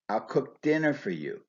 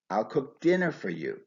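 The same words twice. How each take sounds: First: The main stress falls on dinner. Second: The same.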